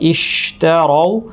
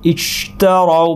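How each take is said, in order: First: The sh sound flows with enough air. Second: The sh sound's air is nearly blocked. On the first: The speaker calls it right. "এটা এভাবে উচ্চারণ করার কথা" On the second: The speaker calls it wrong. "জিহ্বা বেশি কাছে নিয়ে গিয়ে"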